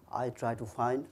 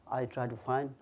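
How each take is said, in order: Both takes have the same delivery.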